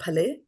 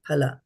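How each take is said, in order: First: The word ends with an 'e' vowel. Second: The word ends with an 'a' vowel. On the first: The speaker calls it wrong. "Not phale" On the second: The speaker calls it right. "phala. This is A"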